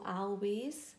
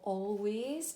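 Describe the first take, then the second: First: The first vowel sounds like a short 'a'. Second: The first vowel sounds like 'all'. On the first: The speaker calls it wrong. "not always" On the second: The speaker calls it right. "but we say all, always"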